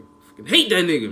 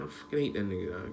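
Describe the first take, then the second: First: Louder and higher, spitting out real anger; angry outburst. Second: Low, soft, bitter grumble under the breath; quiet grumble. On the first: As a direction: let the anger burst out on the repeat. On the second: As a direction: say it quietly to yourself, simmering. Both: Real, not acted. Repeated hate, first low then loud.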